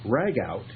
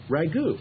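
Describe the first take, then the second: First: It ends with a t, like 'rag out'. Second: It ends in a vowel, like 'goo'. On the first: The speaker calls it wrong. "it sounds as if you put a rag in ... you take the rag out" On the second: The speaker calls it right. "R A G O U T is pronounced ragu"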